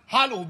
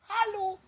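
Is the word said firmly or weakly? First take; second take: firmly; weakly. First: The word is said firmly and confidently. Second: The word is said weakly and timidly. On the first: The speaker calls it right. "sondern hallo, wie ein Mann" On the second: The speaker calls it wrong. "nicht hallo"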